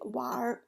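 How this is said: It is said the way northern speakers say it. "for North people, we usually say 玩"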